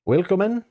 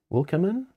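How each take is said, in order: First: Willkommen. tried the German way, vil-KOM-men, with a questioning rise; German pronunciation. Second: Wilcomen? read as English wil-cum-in, with an unsure rise; misread German word. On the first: GM, corrected by co-host, tries the German word. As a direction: say Willkommen. as a tentative German welcome. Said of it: "Oh, it's German for welcome". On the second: GM puzzling over an unknown word, unsure pronunciation. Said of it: "I don't know if I'm saying that right". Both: Real, not acted.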